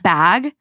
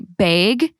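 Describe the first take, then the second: First: The vowel is said the standard way. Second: The vowel is said the Minnesota way. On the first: "instead of bag" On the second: "in Minnesota we say bag"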